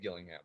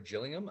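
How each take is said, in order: First: The name begins with a hard G sound. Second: The name begins with a soft J sound. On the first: This is how people in Newfoundland say it. "that's how we say it in Newfoundland" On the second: This is how people from the UK say it. "they say it with a J over there"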